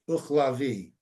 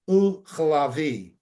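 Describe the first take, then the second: First: It is said fast, the ch blurred. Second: It is said slowly, each sound clear.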